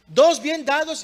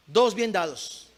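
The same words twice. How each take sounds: First: "Dos bien dados" high and loud; forceful repetition. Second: "Dos bien dados" said slowly, level voice; slow, measured statement. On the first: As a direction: drive "Dos bien dados" home to the congregation. Repeats it forcefully to the congregation. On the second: First take, slow measured statement. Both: Real, not acted.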